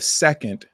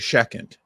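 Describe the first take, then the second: First: The word is said clearly and fully. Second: The word is said slurred and unclear. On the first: The speaker calls it right. "instead of second" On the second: The speaker calls it wrong. "I said second. I just slurred"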